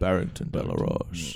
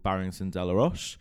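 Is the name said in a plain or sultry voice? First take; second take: sultry; plain. First: The name is said in a sultry voice. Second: The name is said in a plain voice.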